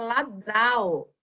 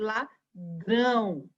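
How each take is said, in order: First: The final vowel is oral, not nasal. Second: The final vowel is nasal. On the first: This is how it would read without the tilde. "Se não tivesse o tio em cima do A, ficaria ladral" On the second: This is how it reads with the tilde. "precisa desse tio aí em cima para a gente ler corretamente"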